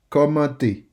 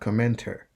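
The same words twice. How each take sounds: First: The word ends in a clear 'ay' vowel. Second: The word ends in an English 'er' sound. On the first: The speaker calls it right. "It is pronounced E instead of er" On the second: The speaker calls it wrong. "not commenter"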